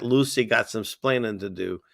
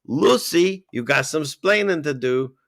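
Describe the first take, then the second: First: Said in the usual way. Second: Put-on Ricky Ricardo's Cuban accent. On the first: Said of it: "him saying that". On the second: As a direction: quote it with a hint of Cuban accent. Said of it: "that line that everyone remembers in his accent".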